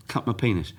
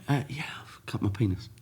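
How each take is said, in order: First: Said in the usual way. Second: Hushed, breathless confession at the desk; embarrassed whisper. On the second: Retold or imitated. To the receptionist, an embarrassed whisper. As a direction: whisper it so nobody nearby hears. Telling reception about his injury.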